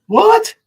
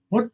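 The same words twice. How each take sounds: First: High-pitched "What?" shooting up; incredulous. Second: Said in the usual way. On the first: Real, not acted. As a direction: repeat it much higher, sharply rising. Repeats question in disbelief.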